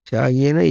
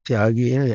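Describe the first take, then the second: The two takes are said the same way.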